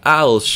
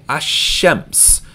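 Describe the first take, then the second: First: The l sound is clearly pronounced. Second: The l blends into a doubled sh. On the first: The speaker calls it wrong. "not al-shems" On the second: The speaker calls it right. "So we're going to say ash-shems"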